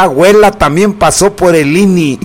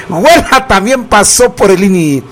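First: Said in the usual way. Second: Breaking into real laughter mid-line; can't hold it together, laugh as you say it; laughing through it. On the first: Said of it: "repeats it laughing". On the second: Real, not acted. Radio host repeats the grandma joke, laughing.

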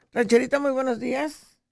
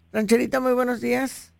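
No difference in how they are said.

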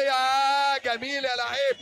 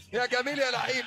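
First: Slow, loud, stretched-out cry of admiration; drawn-out praise. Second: Said in the usual way. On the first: Real, not acted. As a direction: savour every word, loud and slow. Praising player after skilled move. (إعجاب متحمس بصوت عالٍ وممدود)

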